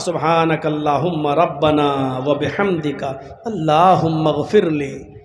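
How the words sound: It is recited carefully and with feeling.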